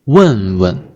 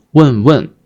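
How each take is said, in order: First: 问问 with stressed falling first, light second; gentle second syllable. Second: 问问 with two full falling tones; both syllables stressed. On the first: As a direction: push the first 问, soften the second 问. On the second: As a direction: hit both syllables of 问问 equally, as a wrong example. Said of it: "Not 问问". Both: Shown as a demonstration.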